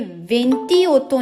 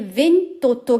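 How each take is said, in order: First: The final i of venti is kept. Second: The final i of venti is dropped. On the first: The speaker calls it wrong. "ये वेंटी ओतो नहीं होगा" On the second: The speaker calls it right. "ये वेंतोतो कहलाएगा"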